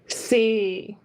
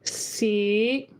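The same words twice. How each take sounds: First: Tone four, with a very low dropping pitch. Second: Tone five, floating up at the end. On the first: "Tone four C. Very low" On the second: "tone five ... Let it float up a little bit at the end"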